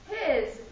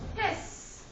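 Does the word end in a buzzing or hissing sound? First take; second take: buzzing; hissing. First: The word ends with a buzzing z sound. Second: The word ends with a hissing s sound. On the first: The speaker calls it right. "A z, it's a buzzing sound" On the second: The speaker calls it wrong. "If I think it's an S sound, I'm going to say his"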